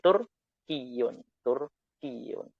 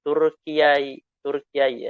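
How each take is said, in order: First: "Turkiyun" with doubled ya, smooth; easy reading. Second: "Turkiai" said clumsily to show it is hard; awkward reading. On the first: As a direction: show the simple "Turkiyun". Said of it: "bisa langsung seperti ini". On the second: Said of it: "memang susah penyebutannya". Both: Shown as a demonstration.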